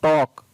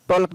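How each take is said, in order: First: टॉक said "tawk" with no l; silent l. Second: टॉल्क with the l sounded, "tawlk"; wrong reading. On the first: Teacher giving students the correct reading, l silent. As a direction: leave the l out of टॉक. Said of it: "टॉक पढ़ा गया". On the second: Teacher warning students against the wrong reading, l sounded. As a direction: put an l into टॉल्क. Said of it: "टॉल्क नहीं पढ़े". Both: Shown as a demonstration.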